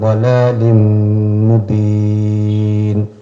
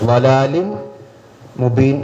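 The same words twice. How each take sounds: First: The N merges into M with a nasal hum. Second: The N is pronounced clearly before the M. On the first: The speaker calls it right. "ഇദ്ഗാം ബിഗുന്ന" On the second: The speaker calls it wrong. "എന്ന് ഓതാൻ പാടില്ല. എവിടെ ഇദ്ഹാർ ചെയ്യരുത്"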